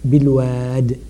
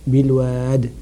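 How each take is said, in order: Both takes have the same delivery.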